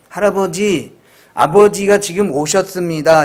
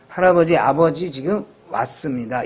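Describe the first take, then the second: First: 아버지가 오셨습니다 with raised honorific; wrong honorific form. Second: 아버지 지금 왔습니다 without honorific; plain 왔습니다 before grandfather; correct honorific suppression. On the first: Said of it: "이렇게 얘기하지 말고". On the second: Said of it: "이렇게 얘기하라는 것이 압존법". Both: Shown as a demonstration.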